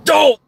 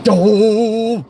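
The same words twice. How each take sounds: First: High, loud, cut-off exclamation; short annoyed grunt. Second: High, drawn-out exasperated groan; long annoyed grunt. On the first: Actor told to make the line shorter, short sharp grunt. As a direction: punch it out short and sudden. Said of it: "can you make it shorter?". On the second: Actor reading "annoyed grunt" in the script, long drawn-out grunt. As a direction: stretch the vowel right out. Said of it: "it said annoyed grunt". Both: Retold or imitated.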